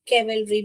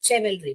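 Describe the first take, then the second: First: The word begins with a k sound. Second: The word begins with a ch sound. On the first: "केवलरी भी नहीं है" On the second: "और चेवलरी भी नहीं"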